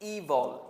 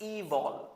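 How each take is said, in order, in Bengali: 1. দ্বিতীয় সিলেবলে একটি অস্পষ্ট স্বরধ্বনি আছে। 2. দ্বিতীয় সিলেবলে একটি অস্পষ্ট স্বরধ্বনি আছে।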